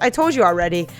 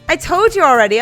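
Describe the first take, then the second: First: It is said in a put-on character voice. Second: It is said in the speaker's natural voice.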